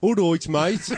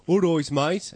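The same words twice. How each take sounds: First: High, loud Wolverhampton greeting; Wolverhampton accent. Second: Higher, louder Birmingham greeting; Birmingham accent. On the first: Host showing how it differs from Birmingham, Wolverhampton accent. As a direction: put on a broad Wolverhampton accent. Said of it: "And this is a Wolverhampton accent". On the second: Host showing newcomers' idea of local speech, Birmingham accent. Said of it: "This is a Birmingham accent". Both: Shown as a demonstration.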